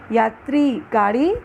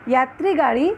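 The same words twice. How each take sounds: First: यात्री, slight pause, then गाड़ी; pause between words. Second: यात्री गाड़ी said as one word, no gap; words run together. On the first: Teacher contrasts two readings, pausing between यात्री and गाड़ी. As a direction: split यात्री from गाड़ी with a short gap. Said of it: "हल्का सा विराम लाना". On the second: Teacher contrasts two readings, running यात्री गाड़ी together. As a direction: join यात्री straight onto गाड़ी. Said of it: "एक प्रवाह में एक साथ पढ़ना". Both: Shown as a demonstration.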